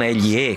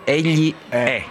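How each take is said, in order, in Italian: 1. La e finale è chiusa. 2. La e finale è aperta. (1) "Non egli è, come dicono a Torino" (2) "la E con l'accento grave è aperta"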